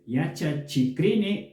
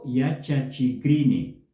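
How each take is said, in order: First: A voiceless k sound comes before -rini. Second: A voiced g sound comes before -rini. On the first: "se escribe con la K" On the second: "la pronunciación puede ser también con G"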